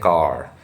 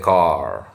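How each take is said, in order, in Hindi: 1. यह शब्द भारतीय लहजे में बोला गया है। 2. यह शब्द अमेरिकी लहजे में बोला गया है। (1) "कार नहीं बोलते थे" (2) "हम लोग बोलते थे कार"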